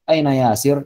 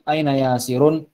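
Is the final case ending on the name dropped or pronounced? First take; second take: dropped; pronounced. First: The name ends without the final vowel ending. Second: The name ends with the full ending -un. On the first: This is everyday conversational speech. "dalam percakapan sehari-hari dia tidak dibaca harokat akhirnya" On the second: This is the formal lesson form. "dalam pelajarannya ya kita menyebutkan seperti ini"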